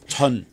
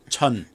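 First: The T and S blend into a ch sound. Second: The T and S blend into a ch sound.

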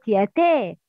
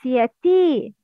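First: The final vowel is an e-like sound. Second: The final vowel is a full, clear i. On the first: The speaker calls it wrong. "not yate" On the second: The speaker calls it right. "it's yati"

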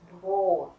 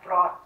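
First: The o vowel is held long. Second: The o vowel is cut short. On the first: The speaker calls it right. "âm O được gạch ngang dài, tức là các bạn phải đọc dài" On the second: The speaker calls it wrong. "chứ không phải là Brot"

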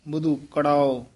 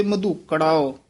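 Both takes have the same delivery.

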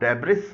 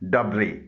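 First: The word ends with an s sound. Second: The word ends without an s sound. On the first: The speaker calls it wrong. "इसे आमतौर पर डेब्रिस बोला जाता है जो गलत है।" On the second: The speaker calls it right. "इसमें एस खामोश है। इसका सही प्रोनाउंसिएशन है"

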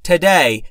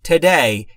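No difference in how they are said.

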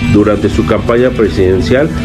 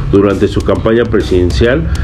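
No difference in how they are said.

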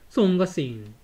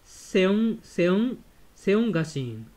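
First: The first syllable is a single 'song' sound. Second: The first syllable has an extra 'e' vowel sound. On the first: The speaker calls it right. "このE は発音しないんですね。" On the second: The speaker calls it wrong. "このE は発音しないんですね。"

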